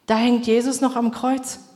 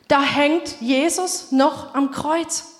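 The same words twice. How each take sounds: First: Said in the usual way. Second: Slow emphatic repeat. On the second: Shown as a demonstration. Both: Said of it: "Schaut euch die ganzen Kruzifixe an".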